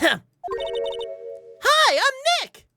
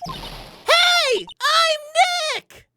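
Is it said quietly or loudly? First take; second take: quietly; loudly. First: It is said at a normal, quieter volume. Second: It is said louder, nearly shouted.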